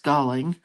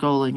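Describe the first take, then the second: First: The first vowel sounds like 'gal'. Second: The first vowel sounds like 'go'. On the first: The speaker calls it right. "it's Galling" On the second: The speaker calls it wrong. "It's not Goling"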